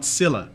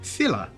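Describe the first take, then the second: First: The word begins with an s sound. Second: The word begins with a th sound. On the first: It follows the later, usual pronunciation. "not Scylla" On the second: It follows the older, Feanorian pronunciation. "Adar says Thilla"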